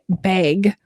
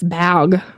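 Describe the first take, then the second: First: The vowel has a raised Minnesota-accent sound. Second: The vowel has a standard short a sound. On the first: It hides the spelling from children. The speaker calls it wrong. "that's how we say it in Minnesota" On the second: It matches the spelling. The speaker calls it right. "seems just awful in my mouth saying it that way"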